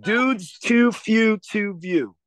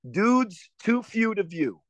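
First: Slow drawn-out Baltimore accent attempt. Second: Slow Baltimore accent try, drawn out. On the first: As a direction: try out a Baltimore accent, very slowly. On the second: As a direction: sound out each word in a Baltimore accent. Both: Shown as a demonstration. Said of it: "I really wanna be able to do the Baltimore accent".

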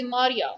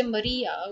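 First: Maria as MAH-ria, open first vowel; our pronunciation. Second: Maria as muh-REE-uh; rejected pronunciation. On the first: Teacher showing what we say, MAH-ria. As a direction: stress a long 'ah' at the start of Maria. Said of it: "we say Maria". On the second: Teacher showing what we don't say, muh-REE-uh. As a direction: stress the long 'ee' in Maria. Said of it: "So we don't say Maria". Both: Shown as a demonstration.

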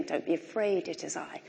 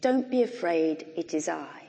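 First: Softer, hushed and tender; Jesus' words, hushed and gentle; quiet. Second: Said in the usual way. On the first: Shown as a demonstration. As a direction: let it fall to a hush. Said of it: "the heart of the whole thing". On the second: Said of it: "one sentence of the heart".

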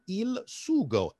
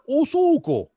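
First: "Il sugo" slowly, Italian, with stress on SU; Italian word. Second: "o sugo" higher and louder, Sicilian dialect; Sicilian word. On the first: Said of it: "in Italian". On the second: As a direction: proudly call out "o sugo" in Sicilian. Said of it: "In Sicilian". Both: Shown as a demonstration.

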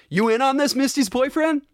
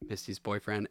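First: High-pitched, rising challenge; imitated movie question. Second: Low, much softer quote; imitated movie line. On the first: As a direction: quote it high, lifting into a question. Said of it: "he's like". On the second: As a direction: drop it low and quiet, mimicking the character. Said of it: "Where he's like".

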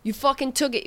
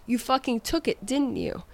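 First: Higher, mock furious yell at the cook; chef yelling. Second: Accusing chef. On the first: The chef yells the accusation in her face, raised and furious. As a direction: hammer the accusation home, a retold yell. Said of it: "in my face yelling at me". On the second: Retold or imitated. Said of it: "And he said".

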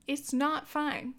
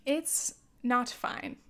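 First: "not" lifted higher and leaned on in "It's not fine"; slow, push the word "not"; stress on not. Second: Slow, even "It's not fine" with weight on "It's"; slow resigned. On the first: Insisting to listeners the planet isn't fine, stress on "not". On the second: Telling listeners about the planet, slow and resigned. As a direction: let "It's not fine" sink slowly. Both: Real, not acted. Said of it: "repeats the phrase twice".

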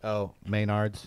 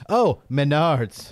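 First: Maynard's said MAY-nards, slow and softer; Maynard's pronunciation. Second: Menards said meh-NARDS, slow and a bit louder; Menards pronunciation. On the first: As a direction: correct it to MAY-nards, slowly. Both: Shown as a demonstration. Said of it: "No, it's Maynard's".

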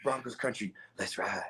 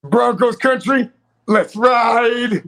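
First: Low, hushed slogan; understated catchphrase retake. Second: Loud, high, drawn-out holler; mock rallying cry. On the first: Pretend. Host redoes the Broncos catchphrase for laughs, low and hushed. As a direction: drop it right down, much softer and deeper. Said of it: "let me get that better". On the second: Host belts out the Broncos catchphrase, loud mock rallying cry. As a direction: belt out the slogan, stretching the words.

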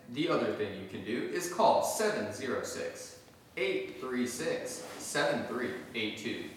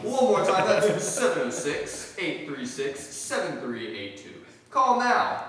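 First: Infomercial voice. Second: Loud, high, pushy ad pitch; infomercial voice. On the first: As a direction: read it like a TV ad. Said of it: "How's my infomercial voice?". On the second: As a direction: fake urgent rush. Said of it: "back from that infomercial". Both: Pretend.

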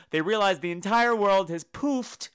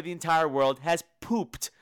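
First: "poofed" said slowly with a crisp f; slow, careful "poofed" so it is not mistaken; careful enunciation. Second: "pooped" said with a p ending; slow, "pooped" with a hard p; sloppy version. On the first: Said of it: "I really have to enunciate". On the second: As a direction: say "pooped" as the mistaken word. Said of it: "mistaken as pooped". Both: Shown as a demonstration.

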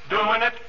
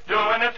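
The two takes are said the same way.

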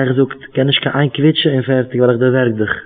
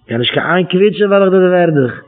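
First: Said in the usual way. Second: Raised, insistent retold threat; mock threat. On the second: Preacher repeats a quoted threat about squealing, mildly menacing. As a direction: repeat the threat with more push, pitched up.

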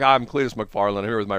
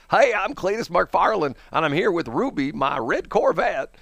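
First: Said in the usual way. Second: High, drawn-out exaggerated Southern twang; Cletus McFarland. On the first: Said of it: "he can't even do it from time to time". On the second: Cletus showing off his Corvette in a video, heavy Southern twang. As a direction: really lay on the Southern twang. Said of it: "some videos he's really twanging it".

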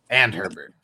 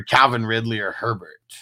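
First: "And" stressed, falling away on Herbert. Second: Said in the usual way. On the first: Real, not acted. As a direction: correct it by leaning on "And". Corrects "or" to "and.

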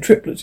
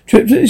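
First: Said in the usual way. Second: Higher-pitched exclamation; exclaiming. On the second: A narrator's reading. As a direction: echo it back as a higher exclamation. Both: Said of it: "She exclaiming".

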